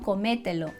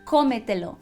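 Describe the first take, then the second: First: The stress falls on a later syllable. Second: The stress falls on the first syllable. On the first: The speaker calls it wrong. "não comételo" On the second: The speaker calls it right. "eu preciso falar cómetelo"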